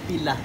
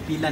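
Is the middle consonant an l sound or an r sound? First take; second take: l sound; r sound. First: The middle consonant is an l sound. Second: The middle consonant is a tapped r sound. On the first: The speaker calls it wrong. "not pila" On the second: The speaker calls it right. "Pila, ra, ra"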